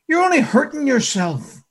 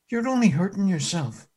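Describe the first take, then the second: First: Said in the usual way. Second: Soft, gentle rebuke: "You're only hurting yourself"; compassionate. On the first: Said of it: "It's hard for you to kick". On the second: Acted. The Lord softly warning Saul, tender and compassionate. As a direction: say it tenderly, with care. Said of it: "compassion that's in the master's voice".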